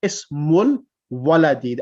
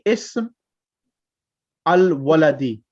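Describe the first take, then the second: First: The words link with the a silent. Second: The a of al is pronounced separately. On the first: The speaker calls it right. "we should read it ismul waladi. The alif becomes silent" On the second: The speaker calls it wrong. "we're not reading ism al-waladi"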